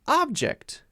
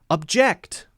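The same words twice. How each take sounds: First: The stress is on the first syllable. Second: The stress is on the second syllable. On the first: It is a noun or adjective. "If it's a noun or an adjective, then we'll stress the other syllable, the first syllable" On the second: It is a verb. "If it's a verb, it's usually going to stress the second syllable"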